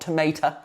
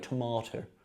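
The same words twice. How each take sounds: First: The middle vowel sounds like 'ay'. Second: The middle vowel sounds like 'ah'. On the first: The speaker calls it wrong. "not tomato" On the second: The speaker calls it right. "that's how you say it properly"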